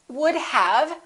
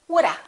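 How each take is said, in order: First: The V sound of have is heard. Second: The V sound is dropped, ending in a.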